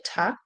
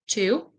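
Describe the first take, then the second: First: The word has a short, weak vowel sound. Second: The word has a full vowel sound.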